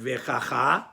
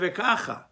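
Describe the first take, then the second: First: The stress is on the last syllable. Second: The stress is on the first syllable. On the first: The speaker calls it wrong. "you don't read the word vekacha with emphasis on the last syllable" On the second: The speaker calls it right. "You read it vekacha"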